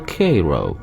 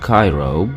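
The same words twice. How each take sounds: First: It uses the local Missouri pronunciation. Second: It uses the usual international pronunciation. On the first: The speaker calls it right. "but rather Cairo" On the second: The speaker calls it wrong. "is not pronounced Cairo"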